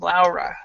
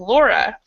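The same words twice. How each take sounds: First: The name is said with a European pronunciation. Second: The name is said with an English pronunciation. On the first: "most Europeans pronounce that name Laura" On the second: "in English we actually pronounce the, the spelling Laura"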